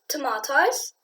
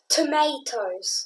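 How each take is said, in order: First: It is said in a British accent. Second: It is said in an American accent.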